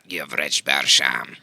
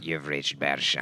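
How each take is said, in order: First: The voice sounds clear, not muffled. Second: The voice sounds muffled, like a phone.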